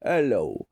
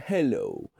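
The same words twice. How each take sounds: First: "Hello" with the h dropped, 'ello; "Hello" starting straight on the vowel. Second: "hello" with its h clearly sounded; "hello" starting on a full h. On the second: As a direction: breathe the h into "hello". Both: Shown as a demonstration. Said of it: "more like, uh, Hello".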